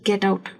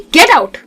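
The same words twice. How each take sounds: First: It is said calmly, without anger. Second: It is said angrily and forcefully.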